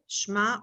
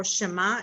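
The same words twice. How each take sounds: First: Shema as one syllable, SHMA; correct pronunciation. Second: Shema as two syllables, sheh-MA; common pronunciation. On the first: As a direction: say shema with no vowel after the sh. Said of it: "correct way to pronounce it". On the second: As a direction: say shema with a vowel after the sh. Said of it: "so some people say". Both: Shown as a demonstration.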